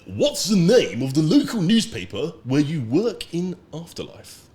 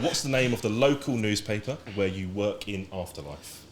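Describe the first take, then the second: First: It is said in a put-on voice. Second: It is said in his normal voice.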